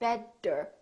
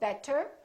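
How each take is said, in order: First: The middle sound is a strong full D. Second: The middle sound is a crisp T. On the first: "It's not a really strong D. It's not better" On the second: "we don't say better"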